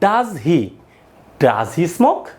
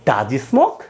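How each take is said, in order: First: The h sound in 'he' is fully pronounced. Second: The h sound in 'he' is dropped. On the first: The speaker calls it wrong. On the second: The speaker calls it right.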